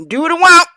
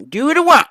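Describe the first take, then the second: First: High, loud demand; bratty shout. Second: Softer repeat. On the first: Host shouting his catchphrase at viewers, loud. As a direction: yell it like a spoiled kid. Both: Acted.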